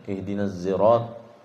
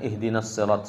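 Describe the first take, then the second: First: The word begins with a z sound. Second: The word begins with an s sound. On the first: "kemudian ihdinas zirat"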